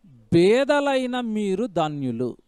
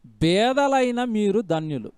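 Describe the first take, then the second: First: Each word of 'బేదలైన మీరు ధన్యులు' drawn out very slowly; slow verse reading. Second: 'బేదలైన మీరు ధన్యులు' repeated slowly and deliberately; slow verse repeat. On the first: Preacher to congregation, reading the Beatitude very slowly. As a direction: read the verse word by word so it sinks in. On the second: Preacher repeating the verse to his listeners, slow and weighty. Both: Shown as a demonstration. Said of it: "బాగా వినండి ఇవన్నీ".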